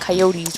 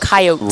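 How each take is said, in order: First: It is pronounced the way northerners say it. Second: It is pronounced the way locals say it. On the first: It is the pronunciation the speaker rejects for the team. The speaker calls it wrong. "more people up north that say it that way ... we're not coyotes" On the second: It is the pronunciation the speaker accepts for the team. The speaker calls it right. "we're coyotes"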